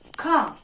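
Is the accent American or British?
British. British accent, with no R sound at the end. "Car is pronounced as car in a British English"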